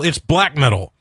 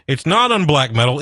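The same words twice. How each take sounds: First: "black" pressed with a firm falling tune; "black" stressed, final and firm. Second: "not" pushed up with a rising tune; "not" hit hard as a correction; stress on not. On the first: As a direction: land hard on "black" to settle it. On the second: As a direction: lean on "not" to correct them. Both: Real, not acted.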